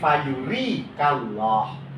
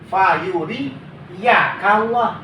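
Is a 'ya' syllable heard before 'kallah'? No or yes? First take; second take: no; yes. First: No 'ya' syllable comes before 'kallah'. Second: A 'ya' syllable comes before 'kallah'. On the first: The verb stays in the indicative case. The speaker calls it right. "tapi fayuri kallah" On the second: The verb is read in the subjunctive case. The speaker calls it wrong. "fayuri ya kallah tidak boleh"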